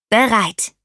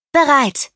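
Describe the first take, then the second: First: Lightly called reply of readiness. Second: Higher, louder call of readiness. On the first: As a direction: call back, only slightly raised. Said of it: "rief auch Iggy Peck". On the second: Ada signals to Rosie that she is ready, called out high. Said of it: "rief Ada Twist". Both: A narrator's reading.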